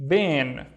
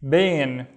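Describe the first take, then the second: No difference in how they are said.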